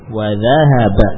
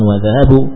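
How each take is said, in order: First: The verb ends in an 'a' vowel. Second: The verb ends in a 'u' vowel. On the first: The speaker calls it right. "bukan wa dhahabu" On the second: The speaker calls it wrong. "bukan wa dhahabu"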